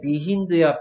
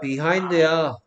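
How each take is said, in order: First: The second vowel is a short 'i' sound. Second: The second vowel is an 'ai' sound. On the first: The speaker calls it wrong. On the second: The speaker calls it right.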